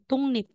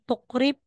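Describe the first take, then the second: First: The middle consonants are said as ng and n. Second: The middle consonants are said as k and r. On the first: The speaker calls it right. "magiging tungnip" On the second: The speaker calls it wrong. "instead na sasabihin mong tukrip"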